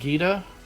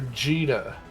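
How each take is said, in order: First: The name begins with a hard G sound. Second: The name begins with a soft G sound.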